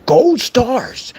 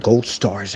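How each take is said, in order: First: High-pitched fake delight; mock excitement. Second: Said in the usual way. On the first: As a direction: announce a kiddie prize to a troll. Mock reward for the trolls.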